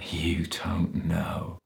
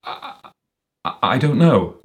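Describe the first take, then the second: First: Slow, whispery mocking echo; hushed, contemptuous drawl; sneering. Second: Hesitant, stammering admission; flustered, higher-pitched faltering reply; muttered stammer. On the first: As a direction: sneer it back softly, drawing out each word. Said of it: "Stainsforth sneered". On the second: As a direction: trip over the first word, then blurt it. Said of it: "muttered Walter". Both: A narrator's reading.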